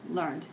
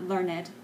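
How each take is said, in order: First: The word is said as one syllable. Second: The word is said as two syllables. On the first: The speaker calls it right. "one syllable" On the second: The speaker calls it wrong. "not learned"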